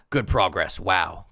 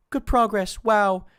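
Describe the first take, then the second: First: Said in the usual way. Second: Higher, louder sarcastic sneer; mock sarcasm. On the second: Streamer voicing boyfriend's sarcastic text with a sneer.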